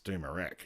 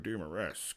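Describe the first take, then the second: First: The name ends with an 'eck' sound. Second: The name ends with an 'esk' sound. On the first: This is how locals say it. The speaker calls it right. "nah, mate, it's Doomerec" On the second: The speaker is showing off a fancy pronunciation. The speaker calls it wrong. "look at me pronouncing it so specially"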